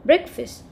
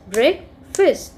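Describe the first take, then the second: First: Said in the usual way. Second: "breakfast" drawn out as break, fast; split into syllables. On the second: Shown as a demonstration. Teacher showing children two syllables, "breakfast" split as break, fast. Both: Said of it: "if we have two syllables".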